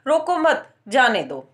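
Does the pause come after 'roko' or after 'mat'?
after mat. The pause comes right after the second word. Do not stop the person; let them leave. "ऐसे बोलता है"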